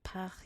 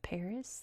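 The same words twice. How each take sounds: First: It is said the French way. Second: It is said the American way. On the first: "I'm not saying Paris instead" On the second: "pronounced the American way"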